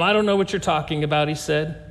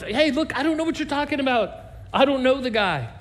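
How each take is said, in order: First: Said in the usual way. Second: A higher, rushed, heated denial. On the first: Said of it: "she said". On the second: Retold or imitated. Peter swears to the crowd he doesn't know Jesus, heated and rushed. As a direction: brush them off fast and sharp. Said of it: "He denied it again with an oath".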